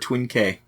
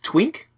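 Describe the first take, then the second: First: It is said as two separate syllables. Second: It is said as a single syllable. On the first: "or Twin K?" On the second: "do you pronounce it Twink"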